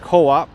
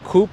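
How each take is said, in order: First: The word is said as two syllables. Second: The word is said as one syllable. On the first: The speaker calls it right. "but Co-op" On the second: The speaker calls it wrong. "It's not Coop"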